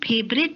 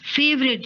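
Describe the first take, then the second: First: The word begins with an aspirated p sound. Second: The word begins with an f sound. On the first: The speaker calls it wrong. "फेवरेट नहीं" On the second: The speaker calls it right. "तुम्हें फ और फ के sound का अंतर करने में दिक्कत आती है"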